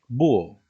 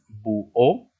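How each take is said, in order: First: The stress is on the first syllable. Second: The stress is on the last syllable. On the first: "Porque sería una palabra en tal caso llana" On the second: "Se acentuaría la O por reglas generales, por ser palabra aguda"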